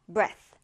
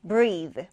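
First: Breath said slowly with a short eh and a light breathy unvoiced th. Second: Breathe: long ee vowel, voiced th, said slowly. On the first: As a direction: clip the vowel in breath and let the th hiss out unvoiced. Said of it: "모음이 에 발음이 납니다 ... 성대를 울리지 않는 가벼운 발음". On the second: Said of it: "모음이 긴 I 발음이고요 ... 성대를 울리는 발음". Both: Shown as a demonstration.

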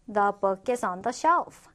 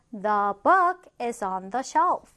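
First: Said in the usual way. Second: Slow, word-by-word teacher reading; slow model reading. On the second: Shown as a demonstration. Teacher models an example about a book for learners, slowly. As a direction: space the words out, stretching "book".

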